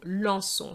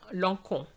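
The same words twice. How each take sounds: First: The c is said as a soft s sound. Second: The c is said as a hard k sound. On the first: The speaker calls it right. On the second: The speaker calls it wrong.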